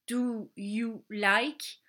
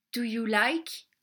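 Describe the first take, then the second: First: Slow demo. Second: Said in the usual way. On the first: Shown as a demonstration. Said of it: "veut dire".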